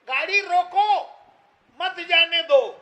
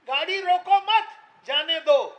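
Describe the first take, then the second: First: The break falls right after 'roko'. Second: The break falls right after 'mat'. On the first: The car should stop. "गाड़ी रुकी ना।" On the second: The car should not stop. "तो गाड़ी चली गई।"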